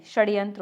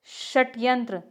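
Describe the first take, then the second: First: षड्यंत्र with voiced "d"; correct form. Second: षट्यंत्र with hard unvoiced "t"; incorrect form. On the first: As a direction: say षड्यंत्र as "shad-yantra". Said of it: "होता है". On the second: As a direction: say षट्यंत्र as "shat-yantra". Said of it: "नहीं, षड्यंत्र होता है". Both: Shown as a demonstration.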